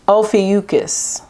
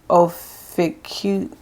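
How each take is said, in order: First: The name is said in full with a 'kus' ending. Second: The name is cut short without the final syllable. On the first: The speaker calls it right. "That's how you say it" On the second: The speaker calls it wrong. "let me just type it in because I'm not trying to sound crazy"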